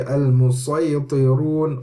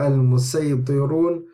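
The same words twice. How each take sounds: First: The s sound is emphatic and heavy. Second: The s sound is plain and light. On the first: "This word can be recited with either sad or sin" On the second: "any is allowed"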